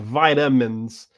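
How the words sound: It is said in an American pronunciation. "there's a stronger emphasis in the U S saying with like vitamins"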